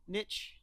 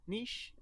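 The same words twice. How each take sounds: First: Soft, questioning "Niche" rhyming with "rich"; trying a pronunciation. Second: Soft, questioning "Niche" rhyming with "leash"; trying a pronunciation. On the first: Co-host unsure of the word, tries "Niche" as "nitch". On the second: Co-host unsure of the word, tries "Niche" as "neesh". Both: Shown as a demonstration. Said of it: "I don't know how the word".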